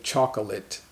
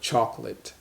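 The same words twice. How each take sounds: First: The word is said in full, unshortened. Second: The word is said shortened, with fewer syllables. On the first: "We don't say chocolate" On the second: "but chocolate. So the word is shortened"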